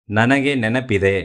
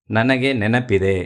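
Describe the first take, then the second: No difference in how they are said.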